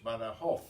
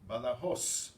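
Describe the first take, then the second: First: The final z sounds like th. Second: The final z sounds like s.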